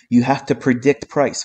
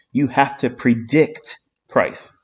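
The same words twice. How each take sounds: First: Said in the usual way. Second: You have to predict price said slowly, each word leaned on; slow, weighty repeat. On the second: Shown as a demonstration. Trader repeating the key rule to viewers, slow and emphatic. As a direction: drive the lesson home, word by word.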